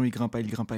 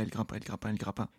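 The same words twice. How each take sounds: First: Said in the usual way. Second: Much softer, trailing away like an echo; fading repeat. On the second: A narrator's reading. Narrator's climb fading out, softer echo. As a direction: let the repeat die off into the distance.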